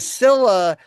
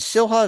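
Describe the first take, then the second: First: The h in the middle is silent. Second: The h in the middle is pronounced. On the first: The speaker calls it right. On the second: The speaker calls it wrong.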